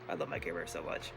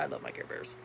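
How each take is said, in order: First: Much lower and softer, a deep fond croon; low cooing. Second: Whispered softly; whispered fondness. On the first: Showing her Care Bears to viewers, low soft croon. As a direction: drop the voice way down fondly. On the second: Showing her Care Bears to viewers, soft whisper. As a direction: whisper it fondly to yourself. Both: Real, not acted.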